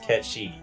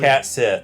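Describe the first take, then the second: First: The name sounds like ket shee. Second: The name sounds like cat sith. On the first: The speaker calls it right. "It's pronounced Ket She" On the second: The speaker calls it wrong. "not pronounced Cat Sith"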